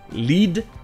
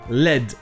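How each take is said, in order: First: The vowel is long, as in 'see'. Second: The vowel is short, as in 'bed'. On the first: It is the verb meaning to guide. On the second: It names the metal.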